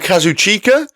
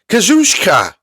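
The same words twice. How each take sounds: First: The name is said in an anglicized way. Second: The name is said in a Japanese-style way. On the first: The speaker calls it wrong. "they call him Kazuchika. That isn't his name" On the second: The speaker calls it right. "It's Kazuchika, I believe"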